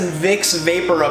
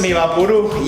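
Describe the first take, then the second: First: It is said with a plain English pronunciation. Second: It is said with a Spanish-style pronunciation.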